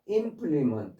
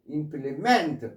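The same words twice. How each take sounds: First: The stress is on the first syllable. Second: The stress is on the last syllable. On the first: It is a noun meaning a tool or instrument. "implement 앞에 강세가 있어서" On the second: It is a verb meaning to complete. "뒤에 강세에 있어서 동사가 될 때"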